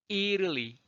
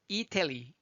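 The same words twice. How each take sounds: First: 이탈리 with the T melted to a tap, "ee-ruh-lee"; tapped T in 이탈리; flapped T. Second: 이태리 with a clear aspirated T, softer; careful "ee-tah-lee" with a real T; full T sound. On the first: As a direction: glide through 이탈리 without puffing the T. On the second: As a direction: release the T in 이태리. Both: Shown as a demonstration. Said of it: "발음하기 편하도록 바꿔지는".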